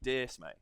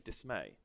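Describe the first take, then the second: First: The stress is on the first syllable. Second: The stress is on the second syllable. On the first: The speaker calls it wrong. "I don't say dismay" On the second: The speaker calls it right. "The emphasis is on may"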